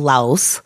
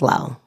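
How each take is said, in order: First: The word ends with a clear S sound. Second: The word ends without any S sound. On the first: This is how people here usually say it. "which is what we call Laos, with a hard S on the end" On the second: This is how the name is said locally. "they don't say the S. It's Lao"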